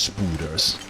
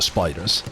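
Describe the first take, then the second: First: The first vowel sounds like 'oo'. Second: The first vowel sounds like 'eye'. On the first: It is a playful twist of the word. The speaker calls it wrong. "I say on purpose spooders" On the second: It is the usual form of the word. The speaker calls it right. "for spiders"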